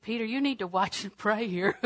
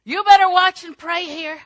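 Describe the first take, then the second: First: Said in the usual way. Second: Loud, high, stern warning; shouted warning. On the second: Acted. Jesus warning sleepy Peter in the garden, shouted. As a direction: belt it out as an urgent order. Warning repeated far louder.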